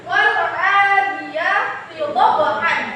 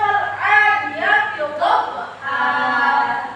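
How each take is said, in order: First: The last word ends with an n sound. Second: The last word ends with a long vowel. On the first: This is the basic reading without a pause. "Itu asal bacaannya. ... Ada tan tanwin" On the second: This is how it is read when stopping at the verse end. "karena di akhir kalimat atau wakaf ... Jadi dibacanya"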